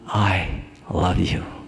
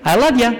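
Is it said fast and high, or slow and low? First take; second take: slow, low; fast, high. First: It is said slowly with a low pitch. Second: It is said quickly with a high pitch. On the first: The listener trusts it. The speaker calls it right. "You have to say it slow and low" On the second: The listener does not believe it. The speaker calls it wrong. "the tone is too high. The speed is too high"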